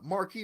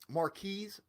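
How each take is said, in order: First: The first name ends without an S sound. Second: The first name ends with an S sound. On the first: The speaker calls it wrong. "Sometimes I will still say Marquis" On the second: The speaker calls it right. "you have to pronounce that S"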